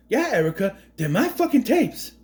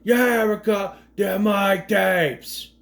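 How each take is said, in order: First: Higher, hammed-up Boston tough guy; Mark Wahlberg impression. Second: Imitated Boston-New York accent, slowly drawn out; mock New York accent. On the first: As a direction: spit out the tapes line like a Boston hothead. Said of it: "I would love Mark Wahlberg to play this role". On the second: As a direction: drag out the line with a put-on New York twang. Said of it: "I don't know what accent he's trying to do".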